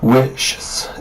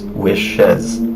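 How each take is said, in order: First: The s is added directly, making one syllable. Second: An extra syllable comes before the final s. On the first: The speaker calls it wrong. "You can't have wishes. It doesn't sound right" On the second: The speaker calls it right. "what you need is another syllable"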